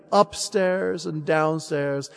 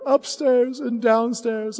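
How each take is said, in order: First: Said in the usual way. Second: Upstairs and downstairs higher and slow; as tender little Billy; child's voice. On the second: Acted. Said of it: "he says".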